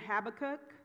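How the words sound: It is said the American way, with a B.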